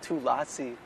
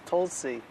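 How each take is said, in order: First: It sounds like three syllables, 'two lassi'. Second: It is said as two syllables, 'Tulsi'. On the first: The speaker calls it wrong. "It's not two lassi" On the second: The speaker calls it right. "It's Tulsi"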